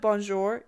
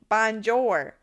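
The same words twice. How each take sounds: First: It is said with a French accent. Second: It is said with an American accent. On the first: The speaker calls it right. "instead of bonjour" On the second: The speaker calls it wrong. "you're saying it with an American accent"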